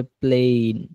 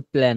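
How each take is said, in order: First: প্লেন said "playn"; long "ay" vowel. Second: প্লেন said like "plan"; mistaken short vowel. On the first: Teacher corrects student's word, প্লেন as "playn". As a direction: say প্লেন with a drawn-out ay glide. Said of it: "শব্দের উচ্চারণ হবে প্লেন". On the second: Teacher echoes student's mistake, প্লেন as "plan". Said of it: "শব্দের উচ্চারণ প্লেন না". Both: Shown as a demonstration.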